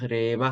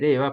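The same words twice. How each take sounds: First: The word is said without the raised pitch. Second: The word is said with a raised pitch. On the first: The speaker calls it wrong. "au lieu de dire reva" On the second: The speaker calls it right. "ça monte un peu"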